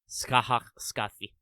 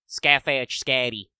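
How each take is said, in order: First: The middle consonant is a soft th sound. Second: The middle consonant is a hard d sound. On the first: The speaker calls it right. "it should be pronounced" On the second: The speaker calls it wrong. "and not"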